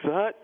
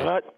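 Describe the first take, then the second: First: The voice is pitched noticeably higher. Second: The voice is at a lower, normal pitch. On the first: The call is made on the road so teammates can hear. "if it's on the road, it's like" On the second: The call is made in a home game. "I'll give you on the home"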